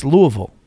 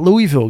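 First: Louisville as LOO-uh-vul; local pronunciation. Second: Louisville as LOO-ee-vill; wrong pronunciation. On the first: Host correcting rookies on Kentucky's city, Louisville as LOO-uh-vul. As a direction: say Louisville with swallowed vowels, LOO-uh-v'l. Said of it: "It's Louisville". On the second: Host showing guys the wrong way, Louisville as LOO-ee-vill. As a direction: say Louisville with a clear EE and a full VILL. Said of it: "It's not Louisville". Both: Shown as a demonstration.

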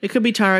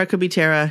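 First: "Tara" said TAH-ruh, broad ah vowel. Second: "Tara" said TAIR-uh, vowel as in care; Tara with air. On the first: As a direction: say "Tara" with the a as in father. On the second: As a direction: say "Tara" rhyming with Sarah. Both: Shown as a demonstration. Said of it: "I might be saying it wrong".

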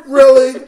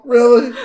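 First: Really? pushed higher and much louder than the first; second Really? hammed up, almost a yelp; louder incredulous really. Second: High, loud, disbelieving Really?; Really? pitched high in mock disbelief; incredulous really. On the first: Repeats it even bigger. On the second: Mocking people glued to phones.

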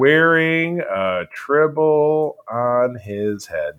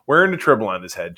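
First: Very slow, every word drawn out; mock title announcement. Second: Said in the usual way. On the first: Host naming the new episode, slow mock-grand announcement.

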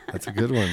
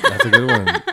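First: Said in the usual way. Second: Very high, squealing through a laugh; laughing praise. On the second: Real, not acted. Praising a friend's joke, squealing with laughter. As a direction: squeal it while cracking up.

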